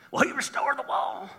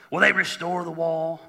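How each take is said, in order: First: High, soft redneck Jewish mock voice; silly redneck Jewish caricature. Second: Said in the usual way. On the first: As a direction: put on a comic redneck Jewish accent, pitched up. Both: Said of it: "That's my redneck Jewish voice".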